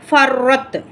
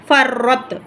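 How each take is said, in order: The two takes are said the same way.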